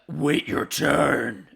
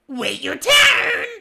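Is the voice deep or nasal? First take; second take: deep; nasal. First: It is said in a deep, demonic voice. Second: It is said in a high, nasal voice. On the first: The speaker calls it right. "In a demonic, low-pitched voice" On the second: The speaker calls it wrong. "his normal, obnoxious, nasal voice, which is the one I did"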